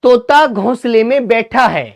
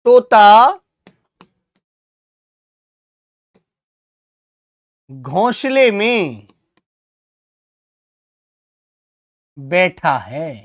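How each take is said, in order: First: Said in the usual way. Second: One phrase at a time, very long gaps; slow dictation. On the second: Shown as a demonstration. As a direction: dictate it for pupils copying it down. Dictates sentence slowly while writing.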